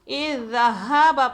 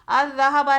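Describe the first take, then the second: First: The word begins with an i vowel. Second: The word begins with an a vowel. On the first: The speaker calls it right. "हम इसे कसरा देंगे" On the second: The speaker calls it wrong. "अज़्ज़हाबा नहीं"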